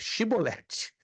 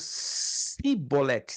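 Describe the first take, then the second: First: The word begins with a sh sound. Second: The word begins with an s sound. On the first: The speaker calls it right. "Eles tinham que pronunciar Chibolete. Não é chiclete, é chibolete" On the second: The speaker calls it wrong. "Mas pronunciaram cibolete, si"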